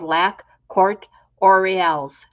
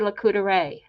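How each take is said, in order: First: Every written letter is pronounced, as in English. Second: It is shortened into a French-sounding 'La Coudray'. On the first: The speaker calls it wrong. "That's how I read it on the billboard" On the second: The speaker calls it right. "it's actually"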